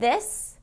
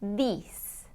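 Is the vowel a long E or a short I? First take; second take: short I; long E. First: The vowel is a short I sound. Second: The vowel is a long E sound. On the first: The speaker calls it right. "we're getting that short I" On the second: The speaker calls it wrong. "with the long E instead of the short I"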